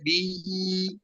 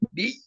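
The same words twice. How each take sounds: First: The vowel is drawn out long. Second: The vowel is short and firmly pressed. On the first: The speaker calls it wrong. "nggak boleh bi, nggak boleh dilamakan" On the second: The speaker calls it right. "bi tekan aja"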